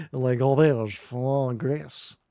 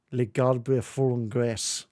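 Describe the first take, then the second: First: Slow, hammed-up French accent; mock French reading. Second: "les garbes font graisse" sounded out slowly in clumsy English sounds; halting, badly anglicised "les garbes font graisse"; terrible French reading. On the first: Shown as a demonstration. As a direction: draw it out in a bad French accent. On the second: Real, not acted. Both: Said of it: "my terrible reading of that French word".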